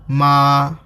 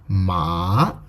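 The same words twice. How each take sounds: First: The pitch stays high and level. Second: The pitch rises from mid to high. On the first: It means mother. "ma means mother" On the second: It means fibrous crops. "Ma means fibrous crops"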